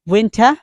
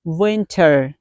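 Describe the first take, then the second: First: "winter" as WIN-tah, rising, no R; British pronunciation. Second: "winter" with a final R, falling; American pronunciation. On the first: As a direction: drop the final R of "winter", lift it. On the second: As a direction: round off "winter" with a clear R. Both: Shown as a demonstration.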